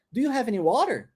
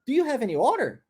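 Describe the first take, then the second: First: "water" said clearly as wor-der, with a tapped t; clear water in sentence. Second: "water" blurred to sound like "order". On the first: Teacher shows the question for students: "water" said clearly. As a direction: say "water" plainly inside the question. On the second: Teacher shows how "water" gets confused: "water" blurred into "order". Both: Shown as a demonstration. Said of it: "Olha só, fica muito parecido".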